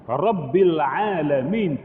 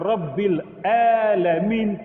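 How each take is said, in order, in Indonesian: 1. Kata ini dimulai dengan bunyi ain yang dalam dari kerongkongan. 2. Kata ini dimulai dengan hamzah glotal biasa. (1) "Tuhan sekalian alam" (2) "Tuhan orang-orang sakit"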